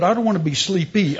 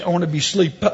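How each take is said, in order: First: "sleepy" with its second syllable sounded out; stress on sleepy. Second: "sleep" set against "sleepy"; stress on sleep. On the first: Patient joking with doctor about his word, stress on "sleepy". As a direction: contrast "sleepy" as the unwanted word. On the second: Patient correcting his doctor for a laugh, stress on "sleep". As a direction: land on "sleep" as the wanted word. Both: Retold or imitated. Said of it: "don't say sleepy".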